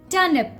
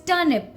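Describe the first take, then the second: The two takes are said the same way.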